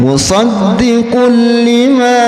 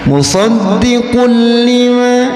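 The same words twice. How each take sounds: The two takes are said the same way.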